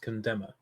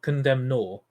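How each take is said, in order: First: The word ends with a soft 'er' syllable. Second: The word ends with a separate 'nor' syllable. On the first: The speaker calls it right. "It's condemner" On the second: The speaker calls it wrong. "it's just it's not condemn nor"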